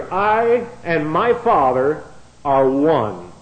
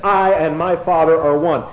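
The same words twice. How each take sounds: First: "I and my Father are one" said slowly, each word weighted; slow weighty scripture quote; slow solemn quote. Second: "I and my Father are one" louder, firm; telling effect on "I and my Father are one"; emphatic quote. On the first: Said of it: "He makes that flat-out statement". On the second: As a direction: give the statement its punch. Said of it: "when he says". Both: Acted.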